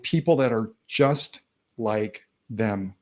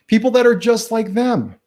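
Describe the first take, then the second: First: Said in the usual way. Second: Higher and louder, punched for emphasis; emphatic repeat. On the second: Shown as a demonstration. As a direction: hammer the point home on the repeat.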